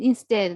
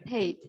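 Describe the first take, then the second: First: The middle consonant sounds like a D. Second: The middle consonant sounds like a clear T. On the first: The speaker calls it right. "T should be pronounced like D" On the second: The speaker calls it wrong.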